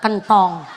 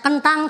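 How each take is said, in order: First: The last vowel is an 'o' sound. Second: The last vowel is an 'a' sound. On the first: "cara Bandar" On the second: "nek cara Cilacap"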